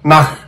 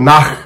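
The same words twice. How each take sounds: Both takes have the same delivery.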